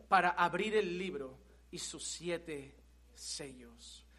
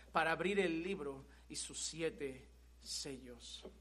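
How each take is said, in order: First: Said in the usual way. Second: "Para abrir el libro y sus siete sellos" said slowly and softly, each word weighed; slow, weighty repeat. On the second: Shown as a demonstration. Preacher to congregation, repeating the verse slowly and softly. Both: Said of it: "repeats the phrase slowly".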